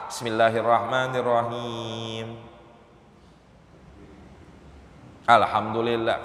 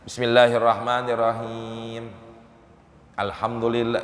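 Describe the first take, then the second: First: A long pause separates the two phrases. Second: A short breath pause separates the two phrases. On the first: The recitation is broken and must restart from the beginning. The speaker calls it wrong. "kan lama itu namanya" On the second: The recitation stays continuous and remains valid. The speaker calls it right. "Cuma sekedar kita narik napas"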